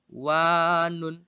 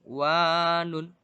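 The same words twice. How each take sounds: The two takes are said the same way.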